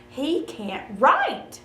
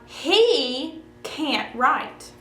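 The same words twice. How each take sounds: First: The stress is on "write". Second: The stress is on "he".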